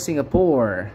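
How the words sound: It is said in an American English accent. "Kalau orang Amerika bilang"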